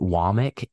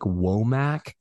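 First: The name sounds like 'wah-mick'. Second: The name is read the way it is spelled. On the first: This is how the person himself says it. The speaker calls it right. "he says it Womack" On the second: This is the reading the spelling suggests. The speaker calls it wrong. "it looks like Womack"

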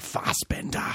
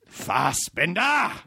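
First: The name is said at a calm, normal level. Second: The name is said loudly and with intensity.

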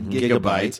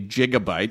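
First: The word begins with a hard G sound. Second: The word begins with a soft J-like sound. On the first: The speaker calls it right. "I happen to like the hard G" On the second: The speaker calls it wrong. "we don't say gigabyte"

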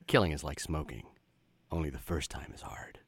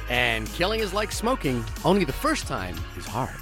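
First: It is said in a gruff noir detective voice. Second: It is said in his normal voice.

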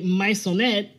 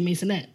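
First: The name is said with Spanish pronunciation. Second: The name is said in a relaxed, casual way. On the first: "but the Spanish say Maisonet" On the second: "and then we're lazy, so we just say Maisonet"

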